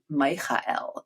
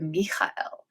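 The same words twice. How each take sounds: First: The name is said like English Michael. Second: The name is said with a foreign guttural ch. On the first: The speaker calls it wrong. "It wouldn't have been Michael" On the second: The speaker calls it right. "It would have Michael, and they, they don't have the ch either"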